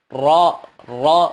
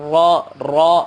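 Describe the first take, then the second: Both takes have the same delivery.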